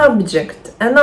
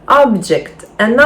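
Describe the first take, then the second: No difference in how they are said.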